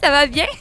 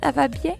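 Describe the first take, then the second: First: It is said in a cheerful, laughing way. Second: It is said in a sad, crying way. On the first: "Tu peux rire un peu" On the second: "c'est un peu plus triste"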